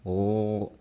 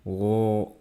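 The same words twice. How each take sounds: Both takes have the same delivery.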